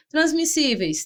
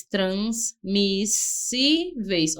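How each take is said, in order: First: Said in the usual way. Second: Transmissíveis stretched very slowly; teacher slowly spelling out transmissíveis; slow demo. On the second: Shown as a demonstration. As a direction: draw transmissíveis out to show the S S split.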